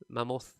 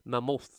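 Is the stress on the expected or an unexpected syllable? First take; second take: unexpected; unexpected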